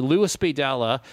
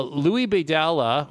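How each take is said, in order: First: "Louis" said as LOO-iss, s sounded; English-style pronunciation. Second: "Louis" said as LOO-ee, silent s; French-style pronunciation. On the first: Host offering other name reading, "Louis" said like Lewis. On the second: Host unsure of singer's name, "[name]" said like Louie. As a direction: drop the final s in "Louis". Offers two readings of the name. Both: Shown as a demonstration.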